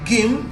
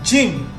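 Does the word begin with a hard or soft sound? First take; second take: hard; soft. First: It begins with a hard g sound. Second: It begins with a soft j sound. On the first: The speaker calls it wrong. "So you don't say gym" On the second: The speaker calls it right. "you say gym"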